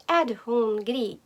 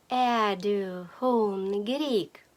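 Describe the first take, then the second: First: "Är du hungrig" run together, no r in "Är"; fast-speech reduced form. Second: "Är du hungrig" very slowly, syllables drawn out; slow teaching take. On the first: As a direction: say "Är" as a bare vowel, linked to "du hungrig". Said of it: "в швидкій розмові". («Är du hungrig» злито, без «р» в «Är») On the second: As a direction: stretch out "Är du hungrig" for learners to repeat. Phrase repeated slowly for learners. («Är du hungrig» повільно й протяжно) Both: Shown as a demonstration.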